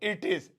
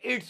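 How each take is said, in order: First: Two separate words are spoken in full. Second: The words are joined into one short syllable.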